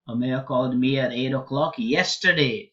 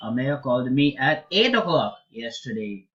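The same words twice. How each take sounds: First: The stress falls on the word yesterday. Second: The stress falls on the word eight. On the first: The call came yesterday, not on an earlier day. "So it was not a month ago, not a week ago, yesterday" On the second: The call came at eight, not at another hour. "Not nine, not in the morning"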